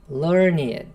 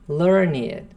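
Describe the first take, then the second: No difference in how they are said.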